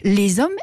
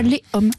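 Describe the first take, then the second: First: A z sound links les to hommes. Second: No z sound links les to hommes. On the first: The speaker calls it right. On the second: The speaker calls it wrong. "et pas les hommes"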